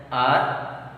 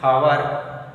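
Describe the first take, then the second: First: "R" for hour, starting straight on the vowel; silent H. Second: "hour" said louder, starting on an audible H; H sounded. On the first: Teacher showing when an will come, H left silent in hour. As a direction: say "R", hour with no H at all. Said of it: "H is silent". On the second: Teacher showing when an will not come, H sounded in hour. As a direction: say "hour" as "how-er", with the H pronounced. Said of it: "If you pronounce hour, an will not come". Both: Shown as a demonstration.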